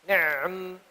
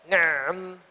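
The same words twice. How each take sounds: The two takes are said the same way.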